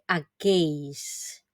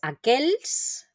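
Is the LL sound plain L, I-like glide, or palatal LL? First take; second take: I-like glide; plain L. First: The LL is said as an I-like glide. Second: The LL is said as a plain L. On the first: The speaker calls it right. "decir aquells, mucho mejor, aunque no es la pronunciación correcta" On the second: The speaker calls it wrong. "no me digáis aquells"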